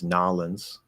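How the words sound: The name is squeezed into two Southern-sounding syllables.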